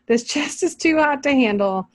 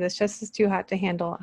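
First: Amused, raised quote of the verse; mocking reread. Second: Said in the usual way. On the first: Real, not acted. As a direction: reread the line in mock disbelief. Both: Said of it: "I don't like that translation".

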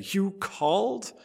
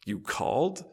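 First: Short and curt, pitched higher. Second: Soft, sleepy mumble; dribbled out. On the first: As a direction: snap it out curtly. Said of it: "the boy asked curtly". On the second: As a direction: let it dribble out half-awake. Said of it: "he dribbles out". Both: A narrator's reading.

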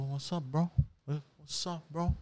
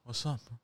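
First: Soft, offhand what's up, twice; quiet greeting. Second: Near-silent, offhand what's up; quiet greeting. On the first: Greeting the driver pulling out, softly casual. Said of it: "I go to him like this". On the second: To the delivery guy, a muted casual greeting. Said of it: "Like this". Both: Shown as a demonstration.

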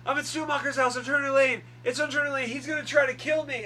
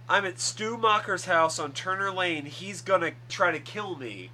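First: High, loud mock-frantic cry for help; retold panicked plea. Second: Mildly urgent, slightly raised voice; mock distress call, still fairly controlled; retold call for help. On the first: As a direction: imitate a desperate distress call at raised pitch. Acting out Sidney's panicked radio call. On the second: Retelling Sidney's radio call for help.

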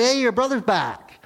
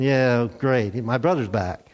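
First: Bright, high call of good news; a servant's eager high shout of news; excited news. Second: Low, dry sarcasm; a sour brother's low mock cheer; sarcastic. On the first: Acted. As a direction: blurt out the news, thrilled. Servant tells older son news. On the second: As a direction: mutter it with bitter irony. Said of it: "And I'm thinking".

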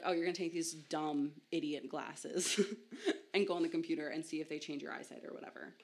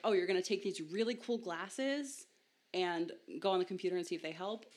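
First: Dismissive pitch. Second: Upbeat pitch. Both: Retold or imitated. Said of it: "the tone with which they were told these glasses was either positive or negative".

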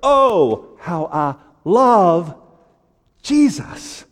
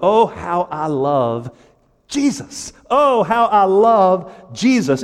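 First: "love" drawn out slowly between pauses; high "Oh", then lean long on "love"; stress on love. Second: "Oh" stretched and "Jesus" lifted high; slow, raised delivery leaning on "Oh" and "Jesus"; emphatic chorus. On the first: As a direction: set "love" apart before a high "Jesus". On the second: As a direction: cry out "Oh" and "Jesus" with fervor. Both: Shown as a demonstration. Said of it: "Emphasize a different word".

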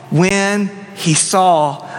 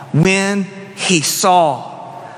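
Both takes have the same delivery.

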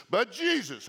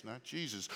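First: "Jesus" punched louder and higher; emphatic Jesus. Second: "Jesus" said soft and low, no weight; limp Jesus. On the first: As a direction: hit "Jesus" with full weight. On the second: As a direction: drop "Jesus" quiet and flat. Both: Shown as a demonstration. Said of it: "talking about Jesus, not Jesus".

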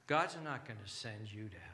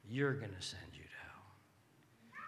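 First: "God's not" leaned on, then falling low; stress on GOD'S NOT. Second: Slow and low, "You're" set apart; stress on YOU'RE. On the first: Preacher warning listeners, weight on "God's not". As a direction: lean on "God's not", denying it firmly. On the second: Preacher warning listeners, slow with weight on "You're". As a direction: lean on "You're" to place the blame. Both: Real, not acted. Contrasts who sends you to hell.

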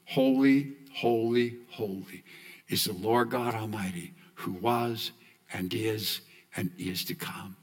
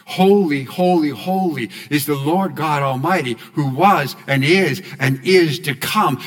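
First: Softer, hushed, almost a prayer; quiet worshipful chant of the refrain; hushed reverent refrain. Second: Louder declared refrain. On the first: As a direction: breathe it out in awe. Quoting the heavenly refrain. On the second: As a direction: proclaim it out, louder. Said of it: "Say it again". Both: Shown as a demonstration.

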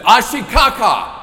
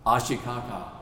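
First: Much higher, much louder exasperated cry; slow, loud, fed-up insistence; frustrated. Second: Calmly. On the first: Mother frustrated her husband doesn't understand, loud exasperated. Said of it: "getting very, very frustrated". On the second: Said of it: "she said calmly". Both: Retold or imitated.

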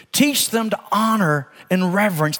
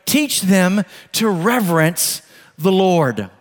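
First: Said in the usual way. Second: Each word laid down slowly and firmly; slow emphatic takeaway. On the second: Shown as a demonstration. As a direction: drive home "teach them to reverence the Lord" slowly, word by word. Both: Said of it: "here it is, if we're looking for a takeaway".

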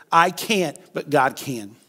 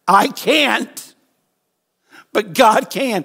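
First: Said in the usual way. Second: Emphatic declaration. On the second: Shown as a demonstration. Preacher modelling the line for the congregation, loud and high. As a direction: proclaim it higher and louder. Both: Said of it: "Can we just say that together?".

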